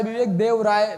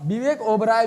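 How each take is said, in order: First: Says Vivek देवराय clearly as the right name; correct name. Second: Says Vivek ओबराय as the mistaken name; wrong name. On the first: Teacher corrects the class, saying देवराय clearly. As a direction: set देवराय straight after the slip. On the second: Teacher repeats the class's mistaken name ओबराय. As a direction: voice the misheard ओबराय before the correction. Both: Shown as a demonstration. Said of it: "विवेक देवराय लिखिए ना".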